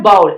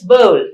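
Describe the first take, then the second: First: "bowl" said with an ow vowel, like "bowel"; "bowl" rhymed wrongly with "howl". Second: "bowl" said with a long O glide; "bowl" rhyming with "hole"; correct bowl. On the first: Teacher showing students the mistaken "bowl". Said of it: "It's not bowl". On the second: Teacher giving students the correct "bowl". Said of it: "it's bowl". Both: Shown as a demonstration.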